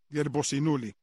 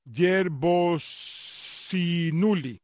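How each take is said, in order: First: Said in the usual way. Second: Yerbosinuli drawn out very slowly, piece by piece; slow careful repetition. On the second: Shown as a demonstration. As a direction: sound out Yerbosinuli slowly for the listener. (Yerbosinuli muy lento, por partes) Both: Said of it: "Voy a repetir eso otra vez".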